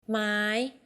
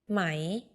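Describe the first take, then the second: First: The syllable is said on a high tone. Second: The syllable is said on a rising tone. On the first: It means wood. "high ไม้ wood" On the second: It means silk. "rising ไหม silk"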